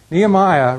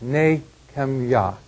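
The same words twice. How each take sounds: First: Said in the usual way. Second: Nehemiah said as three syllables, nay-khem-YAH; Hebrew-style pronunciation. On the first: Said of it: "probably don't do a great do-, job of pronouncing it". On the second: Shown as a demonstration. Teacher showing the class how Nehemiah should sound, pronounced nay-khem-yah. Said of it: "really should be pronounced".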